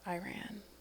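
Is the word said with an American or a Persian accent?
American. It is said with an American pronunciation. "Americans say Iran"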